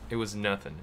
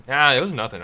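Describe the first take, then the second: First: Said in the usual way. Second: Loud, punchy brush-off opening on a big "Ah". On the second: Acted. Gamer voicing his character's reply to praise, loud brush-off. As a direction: wave it off loudly. Replays the reply more forcefully.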